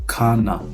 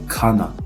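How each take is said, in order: Both takes have the same delivery.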